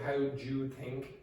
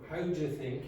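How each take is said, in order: First: The word 'do' keeps its full ooh vowel. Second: The word 'do' is weakened to a short uh. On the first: "instead of" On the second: "that will become"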